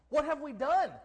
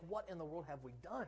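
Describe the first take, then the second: First: Loud, high cry of dismay; raised, emphatic lament; dismayed outcry. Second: Soft, inward question; quiet dismay; hushed dismayed thought. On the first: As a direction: throw the question out, aghast. Same thought repeated as an outcry. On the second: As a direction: think it aloud under your breath. Voicing a private dismayed thought. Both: Acted.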